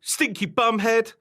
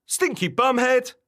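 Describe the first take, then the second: First: Put-on high, loud childish taunt; raised storybook shout; shouted insult. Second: High, loud copycat taunt; mimicking creature shout, pitched up; shouted insult. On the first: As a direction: hurl it like playground name-calling. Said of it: "shouted Barbara". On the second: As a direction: fling the insult straight back. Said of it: "shouted the wobbler".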